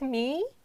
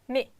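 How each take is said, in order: First: The vowel is held long. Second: The vowel is cut short. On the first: "Here I'm pronounced like a fool" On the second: "You need to shorten the sound like me or he"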